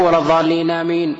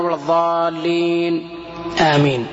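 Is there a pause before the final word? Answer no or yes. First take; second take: no; yes. First: The final word follows with no pause. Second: A short pause comes before the final word. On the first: The final word seems part of the recited chapter. The speaker calls it wrong. "ما يقول" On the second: The final word is not part of the recited chapter. The speaker calls it right. "أن يسكت القارئ في الصلاة أو خارج الصلاة بعد ولا الضالين سكتة لطيفة"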